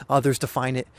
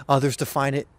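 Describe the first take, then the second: No difference in how they are said.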